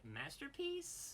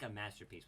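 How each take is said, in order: First: It is said with a questioning rising inflection. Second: It is said flat, as a plain statement.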